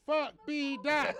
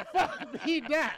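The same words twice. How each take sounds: First: Chanted, louder, higher taunt; chanted, razz the absent guest; chanted, playful jeer at B-Dot; mock chant. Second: Louder taunt breaking into a laugh; mock chant dissolving into laughter; laughing jeer. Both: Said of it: "we gonna be like".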